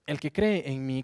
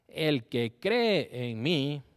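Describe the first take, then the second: First: Jesus's words read out in a raised, carrying voice; crying out. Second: "El que cree en mí" cried out louder and very slowly, stretching "cree"; loud cry. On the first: Preacher reading Jesus crying out to the crowd, loud. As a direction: proclaim it loudly, like a cry to the crowd. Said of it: "clamó Jesús con voz fuerte". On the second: Preacher acting out Jesus crying out, slow and loud. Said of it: "Con voz fuerte". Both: Acted.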